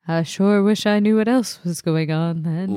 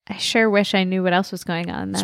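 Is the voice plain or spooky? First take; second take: spooky; plain. First: It is said in a spookier voice. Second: It is said in a plain, unspooky voice.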